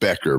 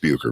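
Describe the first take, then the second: First: The name is said like 'Becker'. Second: The name is said like 'Bucher'. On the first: This is how the family pronounces it. "They pronounce it Becker" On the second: This is how the speaker would pronounce it. "I think it's Bucher"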